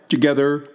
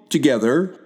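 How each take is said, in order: The two takes are said the same way.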